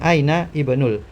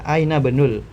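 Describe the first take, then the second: First: The first vowel of ibnul is clearly pronounced. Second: The first vowel of ibnul is dropped and linked. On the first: The speaker calls it wrong. "bukan aina ibnul" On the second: The speaker calls it right. "ini baca aina benul langsung"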